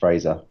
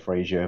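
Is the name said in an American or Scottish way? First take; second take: Scottish; American. First: The name is said the Scottish way. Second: The name is said the American way.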